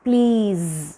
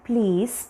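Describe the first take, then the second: First: It ends with a voiced z sound. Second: It ends with a voiceless s sound. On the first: The speaker calls it right. "It is പ്ലീസ്" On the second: The speaker calls it wrong. "It is not പ്ലീസ്"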